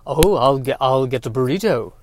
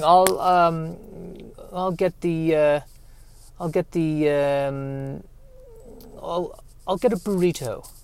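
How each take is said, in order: First: Second [name] try. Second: A lightly voiced, fading bad [name] impression, softer. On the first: Retold or imitated. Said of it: "that's not it either". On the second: Comic impression of a Beatle fetching a burrito, deliberately bad. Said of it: "that is the worst impression".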